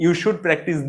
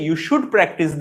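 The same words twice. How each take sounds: The two takes are said the same way.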